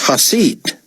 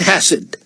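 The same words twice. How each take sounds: First: "Hasid" said slowly as hah-SEED; correcting the stress. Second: "Hasid" mispronounced as HASS-id; stress on first syllable. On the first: David correcting his surname, "Hasid" stressed on SEED. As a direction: stretch the second syllable of "Hasid". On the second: Artiste mangling David's surname, "Hasid" stressed on HAS. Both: A narrator's reading. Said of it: "put the emphasis on the first syllable".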